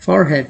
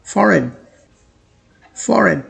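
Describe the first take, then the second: First: Forehead said as for plus head, the h sounded; wrong pronunciation. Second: Forehead as FOR-ed, no h, r kept; correct American pronunciation. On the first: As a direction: show the common mistake forehead with a clear h. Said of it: "इसे लोग पढ़ते हैं forehead". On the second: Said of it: "इस word को कुछ इस तरह से प्रोनाउंस किया जाता है". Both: Shown as a demonstration.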